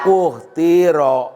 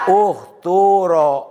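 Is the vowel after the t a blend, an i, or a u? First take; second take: i; u. First: The vowel after the t is an i. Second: The vowel after the t is a u. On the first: "Bisa dikasrohkan" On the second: "Bisa didomahkan"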